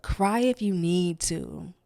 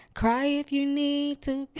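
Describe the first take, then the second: First: Said in the usual way. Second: "Cry if you need to." said much higher, urging; pleading repeat. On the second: Shown as a demonstration. Urging her viewers to cry, a much higher plea. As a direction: lift the repeat high, insisting.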